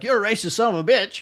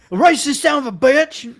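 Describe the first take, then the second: First: Put-on weak British accent, barely shifted; a clumsy try at a British accent; bad British accent. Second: Put-on loud, slow, slurred drunk hillbilly yell. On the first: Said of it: "That was a horrible British accent". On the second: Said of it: "That just sounded like a drunk hillbilly".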